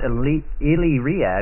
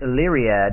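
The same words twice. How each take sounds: First: The name is said in a plain American accent. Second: The name is said in a British accent. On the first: The speaker calls it wrong. "it's not Illyriad, which I pronounced it wrong for a long, long time" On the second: The speaker calls it right. "You you become British, and that's how you say it correctly"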